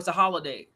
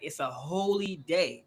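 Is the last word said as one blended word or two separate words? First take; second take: one word; two words. First: The end is said as one blended word. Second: The end is said as two separate words. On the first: It just means a day off. The speaker calls it wrong. "when they say, "Oh, it's a holiday."" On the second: It refers to a religious day. The speaker calls it right. "Say it right"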